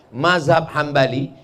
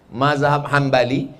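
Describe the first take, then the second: No difference in how they are said.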